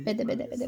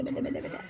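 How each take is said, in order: First: Said in the usual way. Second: Softer whispered repeat. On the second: Real, not acted. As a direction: breathe it out, no voice. Grandma urging child to hand over.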